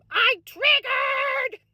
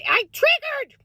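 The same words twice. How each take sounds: First: High and slow, stretching every word; an exaggerated, stretched-out Minnesota wail; drawn-out lament. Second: High, rueful exclamation; a pained Minnesota-mom yelp; dismayed cry. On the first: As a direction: moan it slowly in mock despair. Dragged-out repeat of the outburst. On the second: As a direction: blurt out what went wrong. Dismayed outburst, repeated. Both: Real, not acted.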